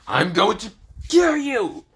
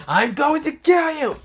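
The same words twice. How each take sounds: First: Villain threat. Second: High, loud screeching threat; shrieking villain threat. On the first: Frieza threatening Issei. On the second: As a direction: shriek it in rage. Frieza shouting again. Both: Acted.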